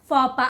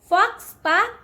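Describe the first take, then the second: First: The x and s sounds are silent. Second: The x and s sounds are pronounced. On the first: The speaker calls it right. "The correct way to say this word is fapa" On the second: The speaker calls it wrong.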